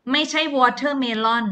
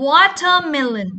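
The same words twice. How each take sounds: First: "watermelon" ending in -lon, the wrong way. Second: "Watermelon" slow, ending -len; correct reading. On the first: Teacher warns pupils off the wrong "watermelon". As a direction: show the mistaken -lon on "watermelon". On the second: Teacher gives pupils the right ending, slowly. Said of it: "เลิน". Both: Shown as a demonstration.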